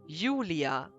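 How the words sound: The name is said with a German pronunciation. "in German, you say Julia"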